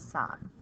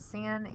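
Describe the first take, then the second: First: The vowel is long, as in fine. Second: The vowel is short, as in pin. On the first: The speaker calls it right. "it is sine" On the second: The speaker calls it wrong. "Please do not pronounce it sin"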